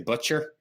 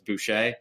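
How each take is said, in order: First: The name sounds like the word butcher. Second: The name is said the French way, boo-shay. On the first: This is how many Americans say it. "a lot of Americans say Butcher" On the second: People assume the name is French Canadian. "people thinking that it's French Canadian"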